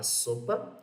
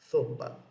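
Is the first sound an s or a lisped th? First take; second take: s; lisped th. First: It starts with a plain s sound. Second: It starts with a lisped th sound. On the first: "fosse falar a palavra sopa" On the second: "uma pessoa com a língua um pouco presa"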